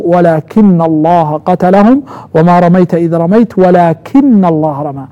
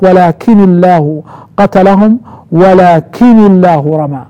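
First: "ولكن" with held double n, walakinna-llaha; doubled n reading. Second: "ولكن" with single n linked by i, "الله" ending in u; lightened reading. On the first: Teacher showing students the doubled reading, "ولكن الله" as walakinna-llaha. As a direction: recite slowly, doubling the n of "ولكن", "الله" ending in a. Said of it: "قرأوها بالتشديد". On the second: Teacher repeating for students the lightened "ولكن الله" as walakini-llahu. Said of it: "هم قرأوا هناك". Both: Shown as a demonstration.

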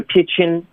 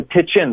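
First: High-pitched "pitch in" with "pitch" punched; wrong stress. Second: "pitch in" with the weight on "in"; correct stress. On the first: Retold or imitated. Teacher imitating student's error, misplaced stress in "pitch in". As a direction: hit "pitch" high instead of "in". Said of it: "不是pitch in". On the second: Shown as a demonstration. Teacher pointing out stress, correct "pitch in". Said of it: "的重音要注意".

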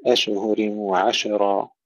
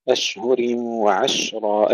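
First: أشهر وعشرة with an echoing bounce after each شين; slow faulty أشهر وعشرة, شين bounced; wrongly bounced shin. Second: Slow أشهر وعشرة with a smooth, hissed still شين; careful recitation, both شين in أشهر وعشرة kept still; unbounced shin. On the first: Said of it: "لا نقول". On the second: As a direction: hold each شين in أشهر وعشرة without any bounce. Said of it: "ننتبه ألا نقلقلها". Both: Shown as a demonstration.

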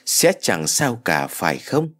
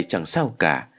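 First: Slow question on "chẳng sao cả", rising at "phải không"; questioning, seeking reassurance. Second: "chẳng sao cả" as a lower, falling statement; self-reassuring answer. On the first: Mother wondering to herself, slow rising question on "phải không". Self-doubting question, then answered. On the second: Mother reassuring herself, low falling "chẳng sao cả". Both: A narrator's reading.

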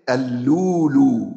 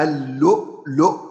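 First: اللولو slow, hamza dropped to long u; drawn out اللولو with no glottal stop; hamza eased. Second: اللؤلؤ said with full hamza, falling; pausal hamza form. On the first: Teacher demonstrates the pausal reading to students. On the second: Teacher showing the written form اللؤلؤ. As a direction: say اللؤلؤ with the glottal stops kept. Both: Shown as a demonstration. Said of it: "يبقى إيه؟".

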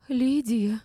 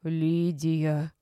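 First: High, loud indignant cry. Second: Indignant. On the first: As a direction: exclaim the name in shrill protest. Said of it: "возмутилась Валеева". (возмущённо, высоким голосом) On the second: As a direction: scold her by name. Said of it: "возмутилась Рима Марковна". (возмущённо, низким голосом) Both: A narrator's reading.

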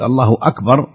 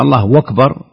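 First: "الله أكبر" as Allahu, then a clean glottal stop on akbar; correct takbir. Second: "الله أكبر" blended as Allahu wakbar, a w gliding into akbar; demonstrating the colloquial takbir with a waw. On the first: Scholar showing the educated pronunciation, clear and separate. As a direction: keep the hamza of akbar cut, no waw. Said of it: "إذا كان الإنسان يستطيع أن يقول". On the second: Scholar imitating the common mosque takbir, lightly blended. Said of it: "أما". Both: Shown as a demonstration.

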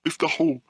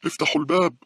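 First: Very high-pitched shout; screaming. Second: Loud, very high scream; old woman's scream. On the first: Old woman kicking the glass door, screaming. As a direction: cry out shrilly as the old woman. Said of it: "وهي تصرخ". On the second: Old woman demanding the door opened, screaming. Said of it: "صرخت العجوز". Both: A narrator's reading.

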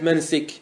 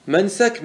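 First: منسك said "mansik", with an i; kasra form. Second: منسك said "mansak", with an a, pitched high; fatha form. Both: Shown as a demonstration. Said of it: "ما ورد بالوجهين".

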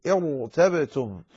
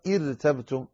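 First: "ارتبتم" slowly, with a heavy, full ra. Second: "ارتبتم" with a light, thin ra; wrong light ra. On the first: Teacher correcting it, slow "ارتبتم" with heavy ra. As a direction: stretch "ارتبتم" and thicken the ر. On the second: Teacher showing the misreading, "ارتبتم" with light ra. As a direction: say "ارتبتم" with the ر thinned. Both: Shown as a demonstration. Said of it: "لا تقرأها".

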